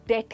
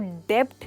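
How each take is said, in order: First: The b sound is silent before the t. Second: The b sound is pronounced before the t. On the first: The speaker calls it right. "डेट कहेंगे" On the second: The speaker calls it wrong. "इसको डेब्ट नहीं"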